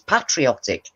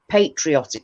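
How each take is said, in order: First: It is pronounced the British way. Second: It is pronounced the American way. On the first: "Brit in English, it's patriotic" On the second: "we found ourselves saying patriotic because we hear Americans so often"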